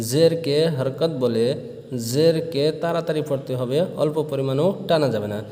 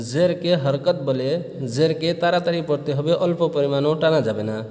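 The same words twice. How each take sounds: The two takes are said the same way.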